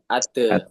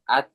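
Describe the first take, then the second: First: The final t is released with a bouncing vowel. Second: The final t stops short without a bounce. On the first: The speaker calls it wrong. "Kalau ate itu dipantulkan" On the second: The speaker calls it right. "Kalau ta sukun ini at"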